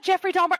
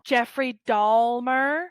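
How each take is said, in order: First: The surname is said without an L sound. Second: The surname is said with a clear L sound.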